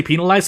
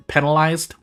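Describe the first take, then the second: First: "penalized" with long ee, PEE-nalized; variant PEE-nalized. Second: "penalized" with short e, PEN-alized; usual PEN-alized. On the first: Player showing what some people say, "penalized" said PEE-nalized. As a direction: say "penalized" with first syllable like pea. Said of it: "some people say". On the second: Player showing own usual way, "penalized" said PEN-alized. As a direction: say "penalized" with first syllable like pen. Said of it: "normally I say the word". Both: Shown as a demonstration.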